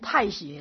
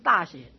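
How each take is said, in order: First: The first syllable is pronounced 'tai'. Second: The first syllable is pronounced 'da'. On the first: The speaker calls it right. "这个应该念成太学了" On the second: The speaker calls it wrong. "不是大学"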